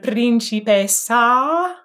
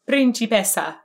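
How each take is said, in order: First: The final vowel is an open ah sound. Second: The final vowel is a neutral schwa sound. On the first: The speaker calls it right. "ah, which is a really nice ah sound" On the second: The speaker calls it wrong. "make it a schwa"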